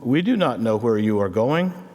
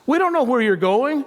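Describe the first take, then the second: First: It is said in a reverent, hesitant tone. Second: It is said in an exasperated, incredulous tone.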